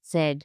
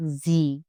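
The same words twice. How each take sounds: First: Z said "tsett", starting with TS; German Z. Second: Z said "zee", with a buzzing start; English Z. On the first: Teacher correcting to the German letter name, TS start. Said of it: "It's always ts". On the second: Teacher showing learners what to avoid, English Z. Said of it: "Don't say it like the English Z". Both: Shown as a demonstration.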